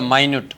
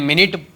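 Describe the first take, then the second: First: The first syllable sounds like 'my'. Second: The first syllable sounds like 'min'. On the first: It means tiny or minute in detail. "માઇન્યુટ બોલો માઇન્યુટ તો સૂક્ષ્મ થાય" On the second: It means sixty seconds. "મિનિટ બોલો તો sixty second થાય"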